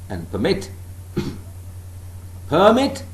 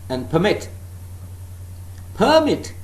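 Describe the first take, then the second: Both takes have the same delivery.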